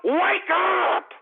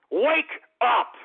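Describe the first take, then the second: First: Higher, drawn-out "wake up"; exasperated yell. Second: Said in the usual way. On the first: Real, not acted. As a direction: yell it to rouse the listeners. Exasperated plea to listeners.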